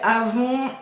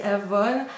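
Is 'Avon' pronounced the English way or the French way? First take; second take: French; English. First: The name is pronounced the French way. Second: The name is pronounced the English way. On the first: This is how people here say it. "nous on prononce ça comme ça" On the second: This is how another person says it. "je sais qu'elle, elle dit Avon"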